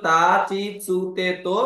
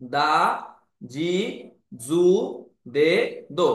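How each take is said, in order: First: "তা, চি, সু, তে, তো" with unvoiced t, ch and s; T series pronunciation. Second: "দা, জি, জু, দে, দো" with voiced d, j and z; voiced D series. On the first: Teacher recalls the earlier series for learners, T syllables. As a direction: say "তা, চি, সু, তে, তো" without voicing the consonants. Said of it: "তখন ছিল". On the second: Teacher shows the changed sounds after ten-ten, separated D syllables. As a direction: say "দা, জি, জু, দে, দো" one by one, voicing each consonant. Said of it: "এখন উচ্চারণ হয়ে যাবে". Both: Shown as a demonstration.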